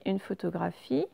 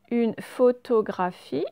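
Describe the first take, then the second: First: Said in the usual way. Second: Careful, drawn-out word; slow reading aloud. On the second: Shown as a demonstration. Teacher reading the word aloud slowly. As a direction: read it out slowly.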